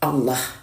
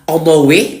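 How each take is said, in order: First: The word ends without any added vowel. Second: The word ends with an added "e" vowel. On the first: The speaker calls it right. "ini betul-betul Allah, lafaz Allah yang sebenarnya Allah" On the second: The speaker calls it wrong. "bukan Allahe ya"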